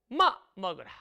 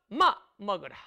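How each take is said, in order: Both takes have the same delivery.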